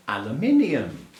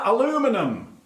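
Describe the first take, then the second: First: Said in the usual way. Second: "aluminum" stressed on LU, without the second i; high-pitched, mock-American "aluminum"; American pronunciation. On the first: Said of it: "which obviously in English is". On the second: Shown as a demonstration. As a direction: say "aluminum" the American way, a-LOO-mi-num, high and mocking. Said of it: "In America".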